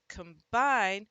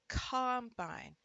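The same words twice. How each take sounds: First: The stress is on the second syllable. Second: The stress is on the first syllable. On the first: "stressing the other one, ... When the second syllable is punched, the first syllable often gets the schwa sound" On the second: "The combine"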